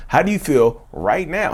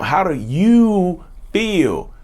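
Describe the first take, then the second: First: Said in the usual way. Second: Drawn-out, emphatic check-in; slow, deliberate question. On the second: Real, not acted. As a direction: stretch out every word of the question. Repeats key question very slowly.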